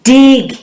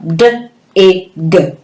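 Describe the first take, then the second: First: "Dig" as one whole word, higher; "Dig" blended into a single bright answer. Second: "D, I, G" as three separate phonemes; "D, I, G" said as letter sounds, one by one; segmented sounds. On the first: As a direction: say "Dig" joined up, no gaps. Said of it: "What am I trying to say?". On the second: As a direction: sound out d, short i, g with gaps. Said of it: "we will segment it". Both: Shown as a demonstration.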